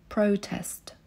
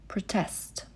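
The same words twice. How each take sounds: First: The stress is on the first syllable. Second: The stress is on the second syllable. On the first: It is used as a noun. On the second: It is used as a verb. "Protestować"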